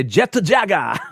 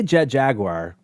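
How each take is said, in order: First: "Jet to Jaga" punched out as JET-to JA-ga; playful Japanese pronunciation. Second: "Jet Jaguar" as jet JAG-war; usual English pronunciation. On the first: Guest showing his fun-mood way, playful Japanese version. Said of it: "if I'm in a fun mood". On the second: Guest giving his everyday way, English JAG-war. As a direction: say "Jaguar" plainly in two syllables. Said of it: "I say Jet Jaguar". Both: Shown as a demonstration.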